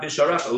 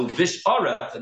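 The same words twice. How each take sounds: First: Visharecha said without the ayin; wrong pronunciation. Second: Uvisharecha said with the ayin sounded; correct pronunciation. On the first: Retold or imitated. A teacher mimics the careless version, dropping the ayin. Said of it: "It's not visharecha". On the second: Shown as a demonstration. A teacher models the correct form, ayin clearly sounded. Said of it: "They leave out the ayin".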